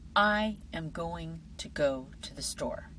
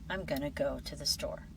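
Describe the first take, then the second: First: Every word is said fully and separately. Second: Weak vowels and blended sounds shorten the words. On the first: "Listen to these two versions of the same sentence" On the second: "how many native speakers actually say it"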